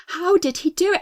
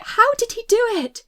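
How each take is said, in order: First: Higher, startled question; alarmed disbelief. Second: Much higher, louder, frantic repeat; mounting panic. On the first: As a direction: ask it in rising alarm. Frightened girl's thought, repeated. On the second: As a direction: push the question up into panic. Same thought, escalating. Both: A narrator's reading.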